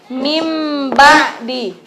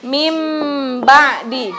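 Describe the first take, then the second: Both takes have the same delivery.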